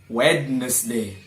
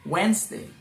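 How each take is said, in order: First: The d sound is clearly pronounced. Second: The d sound is left silent. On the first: The speaker calls it wrong. "not Wednesday" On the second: The speaker calls it right. "silent letter D"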